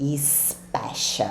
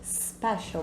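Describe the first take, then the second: First: An extra 'ee' vowel is added before the s. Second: The word starts directly with the s sound. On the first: The speaker calls it wrong. "Eu escuto muitos alunos dizerem special" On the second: The speaker calls it right. "bem levinho"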